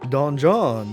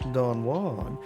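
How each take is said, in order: First: The second syllable sounds like 'John'. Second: The second syllable sounds like 'Juan'. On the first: The speaker calls it right. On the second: The speaker calls it wrong. "not Don Juan"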